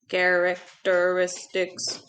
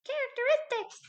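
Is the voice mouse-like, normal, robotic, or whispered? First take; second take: robotic; mouse-like. First: It is said in a flat, mechanical robot voice. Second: It is said in a tiny, high squeaky voice. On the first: "in a robot voice" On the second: "in a mouse voice"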